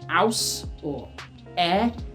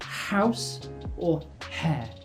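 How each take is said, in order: First: The second word starts without an h sound. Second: The second word starts with an h sound. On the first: The speaker calls it wrong. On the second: The speaker calls it right.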